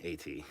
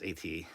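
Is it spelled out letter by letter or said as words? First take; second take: spelled out; spelled out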